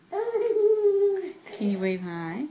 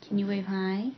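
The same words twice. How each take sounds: First: Very slow, drawn-out sing-song; slow baby talk. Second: Said in the usual way. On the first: Shown as a demonstration. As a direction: stretch each word for the baby. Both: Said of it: "Say hi".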